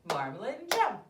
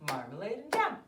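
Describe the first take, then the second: No difference in how they are said.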